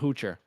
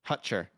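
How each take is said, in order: First: The first vowel sounds like in 'hoot'. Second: The first vowel sounds like in 'hut'. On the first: The speaker calls it wrong. "So not Hoocher. Because I, I keep saying Hoocher" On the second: The speaker calls it right.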